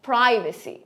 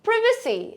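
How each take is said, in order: First: It is said with an American accent. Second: It is said with a British accent. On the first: "Americans will say privacy" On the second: "they'll say privacy"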